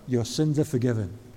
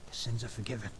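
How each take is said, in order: First: It is spoken loudly and openly. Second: It is spoken quietly and softly. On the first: It is said publicly for everyone to hear. "in a loud voice" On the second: It is said privately to one person. "have a little quiet word with him"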